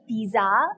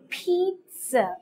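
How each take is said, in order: First: The middle consonant is a buzzing z sound. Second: The middle consonant is a hissing s sound. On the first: The speaker calls it wrong. "You don't say pizza" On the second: The speaker calls it right. "The correct pronunciation is pizza"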